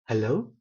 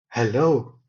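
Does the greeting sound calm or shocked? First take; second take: calm; shocked. First: It is said calmly on a middle pitch. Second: It is said in a shocked, upset voice. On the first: A plain, ordinary greeting. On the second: The visit was unannounced and unwelcome. "as though shocked out of his mind"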